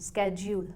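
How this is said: The word begins with an sk sound. "American इस word को स्केड्यूल pronounce करते हैं"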